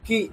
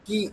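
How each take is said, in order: First: Said in the usual way. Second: কি with the ক pushed hard; stressed কি. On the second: Shown as a demonstration. Teacher contrasts plain and stressed কি. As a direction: punch the ক in কি. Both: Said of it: "কয়ের উপর একটু stress দিতে হবে".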